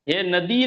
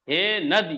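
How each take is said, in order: First: The final vowel is held long. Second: The final vowel is said short. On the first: The speaker calls it wrong. "हे नदी नहीं" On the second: The speaker calls it right. "ह्रस्व यहां पर है"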